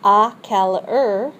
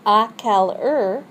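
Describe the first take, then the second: First: À quelle heure rising on heure; model phrase, rising. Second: À quelle heure said clearly; model phrase. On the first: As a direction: repeat À quelle heure with a lift on heure. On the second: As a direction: say À quelle heure for them to repeat. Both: Shown as a demonstration. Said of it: "you're gonna repeat these after me".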